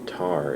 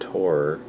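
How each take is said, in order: First: It rhymes with the word tar. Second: It rhymes with the word tor. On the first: "it sounds like T A R" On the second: "it sounds like T O R"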